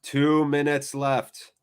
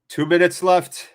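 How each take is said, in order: First: Slow, drawn-out reminder; slow tense reminder of the time left; slow tense repeat. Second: Said in the usual way. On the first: Real, not acted. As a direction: let each word hang.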